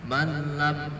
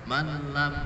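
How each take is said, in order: No difference in how they are said.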